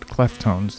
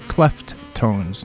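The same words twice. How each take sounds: First: Only a single t sound is pronounced. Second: Both t sounds are pronounced separately. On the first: This names a different group with a similar name. "not Cleftones, like the other Cleftones" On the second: This names the group spelled with two T's. "The Cleftones with two T's"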